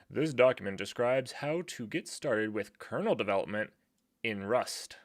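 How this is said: It is said in a put-on important voice.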